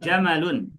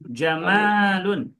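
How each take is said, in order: First: The vowel after the m is short. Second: The vowel after the m is long. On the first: The speaker calls it right. "kita bacanya jamalun ... Mimnya tidak dipanjangkan" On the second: The speaker calls it wrong. "bukan jamalun"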